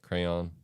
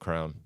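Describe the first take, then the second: First: The word has a Y sound in the middle. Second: The word has no Y sound in the middle. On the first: "Like people say the Y" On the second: "how I pronounce it"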